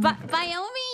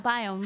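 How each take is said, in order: First: The word ends with an extra 'ee' sound. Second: The word ends plainly without an extra vowel. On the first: It is a deliberately cute pronunciation. The speaker calls it wrong. "I've been saying it wrong, but I've thought I'll stick with it because it's cuter to say Biomi" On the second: It is the standard pronunciation. The speaker calls it right. "Do you know how to say biome correctly? Yeah, biome"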